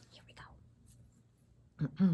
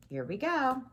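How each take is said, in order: First: Slow breathy hush to open the story; slow whisper. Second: Said in the usual way. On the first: Shown as a demonstration. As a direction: whisper it slowly, building suspense. Teacher restarts, hushed for effect.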